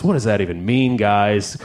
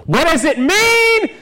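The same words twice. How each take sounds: First: Said in the usual way. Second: High, drawn-out cry of bafflement; mock exasperated yell. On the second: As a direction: wail the question at the crowd in mock despair. Mock exasperated outburst at the audience.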